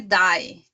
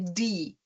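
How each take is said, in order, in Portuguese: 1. A vogal desliza como a palavra inglesa 'dye'. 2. A vogal é um som 'ee' longo e constante. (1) "aqui não é die. Tem alguns alunos que têm influência do inglês de falar die" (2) "O E não se pronuncia, é como se fossem dois Is"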